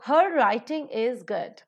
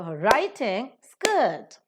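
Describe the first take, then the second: First: Said in the usual way. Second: "writing" and "good" stretched, "her" and "is" reduced; slow beats on "writing" and "good", weak "her"; stress on writing, good. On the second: Shown as a demonstration. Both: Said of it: "writing and good are accented".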